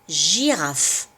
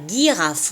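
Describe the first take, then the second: First: The word begins with a soft j sound. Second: The word begins with a hard g sound. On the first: The speaker calls it right. "on entend J, on dit girafe" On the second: The speaker calls it wrong. "on ne dit pas girafe"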